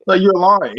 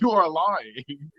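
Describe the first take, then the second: First: Said in the usual way. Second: "you are lying" said slowly and softly, each word apart; slow, quiet spelled-out you are lying. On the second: Shown as a demonstration. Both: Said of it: "You're like".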